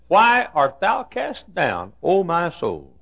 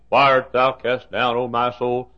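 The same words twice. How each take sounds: First: It is said with strong, expressive emotion. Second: It is read flatly, without much feeling.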